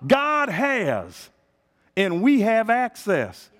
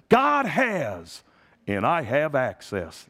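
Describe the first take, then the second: First: God has rising, we have access shouted slow; preaching shout. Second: The confident preacher's cadence; T L Osborne's way. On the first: Shown as a demonstration. Pastor proclaims to the church, slow and shouted. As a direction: proclaim it to the congregation. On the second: Retold or imitated. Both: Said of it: "That's how he said it".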